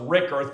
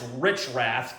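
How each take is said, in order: First: The name is said like Rickerth. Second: The name is said like Richrath. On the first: The speaker calls it wrong. "I thought it was Rickerth" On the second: The speaker calls it right. "now I realize it's Richrath"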